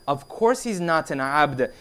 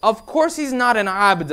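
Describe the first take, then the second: First: Slow, composed agreement; measured reply. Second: Mildly indignant, slightly raised pitch; indignant maid. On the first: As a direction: quote the Imam calmly and deliberately. Imam's measured reply, acted. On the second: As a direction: act out a maid's quick protest. Maid's indignant reply, acted. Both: Retold or imitated.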